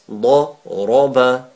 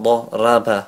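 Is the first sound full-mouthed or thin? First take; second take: full-mouthed; thin. First: The first sound is heavy and full-mouthed. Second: The first sound is light and thin. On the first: The speaker calls it right. "It is full mouth when it has a zabar" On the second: The speaker calls it wrong. "not dharaba"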